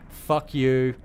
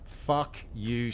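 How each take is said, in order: First: "Fuck you." yelled loud with the weight on "you"; furious shout. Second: "Fuck you," at normal volume with the weight on "fuck"; stress on fuck. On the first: Angry viewer cursing Sandy, loud stress on "you". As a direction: punch "you" hard and loud. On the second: Viewer repeating his curse at Sandy, stress on "fuck". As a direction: lean into "fuck", then drop "you". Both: Real, not acted.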